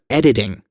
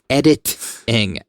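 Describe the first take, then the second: First: The T sounds in the word are dropped. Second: The T sounds in the word are pronounced. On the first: The speaker calls it wrong. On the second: The speaker calls it right.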